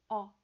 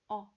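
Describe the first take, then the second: Both takes have the same delivery.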